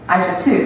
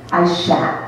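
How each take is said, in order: First: The name ends with a full 'too' syllable. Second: The name ends with a short 't' sound. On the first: The speaker calls it wrong. "you would think it was pronounced" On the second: The speaker calls it right. "The proper pronunciation of my full first name"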